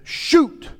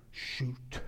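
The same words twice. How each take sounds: First: High, loud shouted order; shouted command. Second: Hushed, voiceless order; whispered command. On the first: Acting out Elisha's command to shoot. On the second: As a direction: whisper it like an archer's cue. Same command replayed in a hush. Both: Acted.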